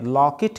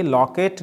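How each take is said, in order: First: लॉकेट said as lock-it, short second vowel; correct pronunciation. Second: लॉकेट said as lock-ate with a long e; the mistaken लॉकेट, ending in -kate; wrong pronunciation. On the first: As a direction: say लॉकेट ending in -kit. (लॉकेट को लॉकिट बोलें) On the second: (गलत उच्चारण: लॉकेट को लॉकेट बोलना) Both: Shown as a demonstration. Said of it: "लॉकेट नहीं".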